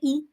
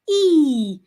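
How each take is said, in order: First: The vowel is short. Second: The vowel is long. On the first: The speaker calls it wrong. "Do not say" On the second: The speaker calls it right. "it's a long sound"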